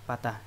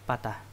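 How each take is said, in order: Both takes have the same delivery.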